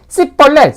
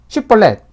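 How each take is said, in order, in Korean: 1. 이 단어는 평범한 s 소리로 시작합니다. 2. 이 단어는 sh 소리로 시작합니다. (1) "발음을 못하고 씨벌렛 이렇게 하게 되면" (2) "쉬벌렛 하라 그랬는데"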